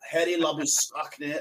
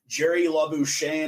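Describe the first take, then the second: First: The name is said the South African way. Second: The name is said the American way.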